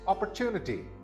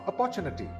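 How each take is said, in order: First: The stress is on the third syllable. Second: The stress is not on the third syllable. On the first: The speaker calls it right. "The third syllable is the one that's stressed" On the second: The speaker calls it wrong. "not opportunity"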